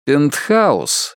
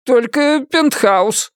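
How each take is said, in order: First: Cool, controlled echo; icy, unimpressed client; cold. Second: High, slow reluctant offer; awkward, grudging admission; muttering agent. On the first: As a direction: repeat it coldly, with restraint. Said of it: "холодно сказал Ричард". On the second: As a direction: drag it out hesitantly, pitched high. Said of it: "пробормотал он". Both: A narrator's reading.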